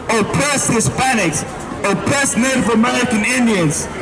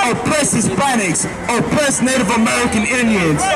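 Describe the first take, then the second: Both takes have the same delivery.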